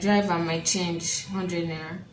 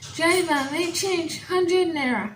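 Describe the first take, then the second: First: It is said in a plain, ordinary voice. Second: It is said in an exaggerated, mocking voice.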